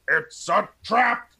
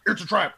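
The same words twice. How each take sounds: First: It is said slowly, as if processing it. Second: It is said quickly and plainly.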